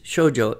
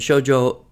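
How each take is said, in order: First: The first syllable is long, the second short. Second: Both syllables are long, four beats in total. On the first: "two beats on the first syllable and one on the second" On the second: "two beats on the first and two on the second"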